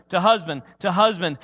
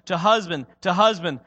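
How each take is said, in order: Both takes have the same delivery.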